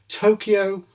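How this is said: It is said in an English style. "English style"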